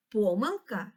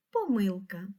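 First: Помилка stressed on по, PO-myl-ka; stress on first syllable. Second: Помилка stressed on мил, po-MYL-ka; stress on second syllable. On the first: Teacher showing one of two correct stresses, first syllable of помилка. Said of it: "два наголоси". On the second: Teacher showing the other correct stress, second syllable of помилка. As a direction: lean on the middle syllable of помилка. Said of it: "І так само правильно сказати". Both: Shown as a demonstration.

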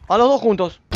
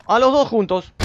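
The two takes are said the same way.

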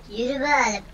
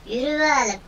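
Both takes have the same delivery.

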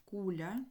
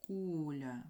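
First: Said in the usual way. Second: "куля" with a long, drawn-out КУ; slow stress demo, КУУ-ля; stressed first syllable. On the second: Shown as a demonstration. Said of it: "І наголос".

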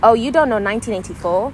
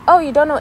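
First: Loud, belittling disbelief; judgmental tone. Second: High, loud, friendly surprise; happy tone. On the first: Showing the hurtful way to ask about a book, judgmental. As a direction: question it so they feel bad for not knowing. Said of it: "it's very much the tone". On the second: Showing a kinder way to react, happy surprise. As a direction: sound happily surprised, without judgment. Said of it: "it's like, it's a happy tone". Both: Shown as a demonstration.

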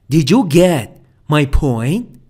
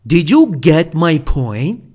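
No difference in how they are said.

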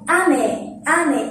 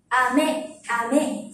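First: "Ame" falling from high A to low me; high-to-low pitch accent. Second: "Ame" starting low, stepping up on me; candy "Ame" with rising accent; low-to-high pitch accent. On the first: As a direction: start "Ame" high, drop on me. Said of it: "Mình sẽ đọc từ trên xuống". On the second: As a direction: begin "Ame" low and lift me. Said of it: "mình sẽ ngược lại". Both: Shown as a demonstration.

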